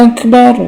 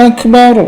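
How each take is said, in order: No difference in how they are said.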